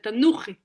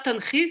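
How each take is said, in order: First: An oo vowel is heard between n and ch. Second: No vowel is heard between n and ch. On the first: The speaker calls it right. "c'est tanouchi" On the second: The speaker calls it wrong. "C'est pas tanchi"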